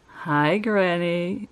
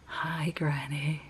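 First: The greeting is said in a plain voice. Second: The greeting is said in a creepy voice.

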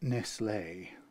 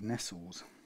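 First: The final E is pronounced. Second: The final E is silent. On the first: This is the foreign-style way of saying it. "It probably still had the accent over the final E" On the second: This is the older, anglicised way of saying it. "when I was a child, Nestles was called Nestles"

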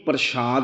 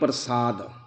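First: The word is said with an 'sh' sound. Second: The word is said with an 's' sound. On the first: It means the sacred sweet offering. The speaker calls it wrong. "ਇਹਨੂੰ ਪ੍ਰਸ਼ਾਦ ਨਹੀਂ" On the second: It means grace or blessing. The speaker calls it right. "ਬਿਨਾਂ ਬਿੰਦੀ ਤੋਂ ਪੜਨਾ"

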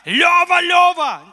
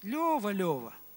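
First: It is shouted in an angry tone. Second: It is said calmly with only slight annoyance. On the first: The speaker is furious. "когда я в гневе и кричу на своего сына" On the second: The speaker is gently correcting, not furious. "не сильно злимся. Так, чуть-чуть"

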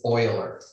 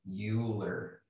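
First: The first syllable sounds like 'oy'. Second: The first syllable sounds like 'you'. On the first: The speaker calls it right. "It is Euler" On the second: The speaker calls it wrong. "It is not Euler, like Bueller"

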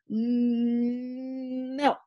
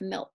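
First: The first sound is repeated before the word. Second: The word is said smoothly without any repetition. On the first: The child is stuttering. "Are there sound or syllable repetitions? So do they say milk" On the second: The word comes out without stuttering. "instead of milk"

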